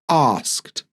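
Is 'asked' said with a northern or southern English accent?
southern. It is said in a southern English accent. "he's got a southern English accent"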